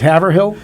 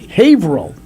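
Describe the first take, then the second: First: The last part is said as 'hill', with h. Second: The last part is said as 'rill', without h. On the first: This is how most outsiders read the name. The speaker calls it wrong. "oh you thought it was Haverhill?" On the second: This is how the locals say the name. The speaker calls it right. "somebody dropped the last H, and it becomes Rill"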